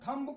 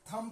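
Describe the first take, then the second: First: The final b sound is pronounced. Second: The final b sound is silent. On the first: "थम्ब को" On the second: "थम पढ़ा जाएगा"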